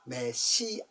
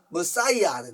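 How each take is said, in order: First: It is said with a front first syllable me. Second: It is said with an English-style first syllable muh. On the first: "메시아입니다가 아니고" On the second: "영어로 하면 머사이아"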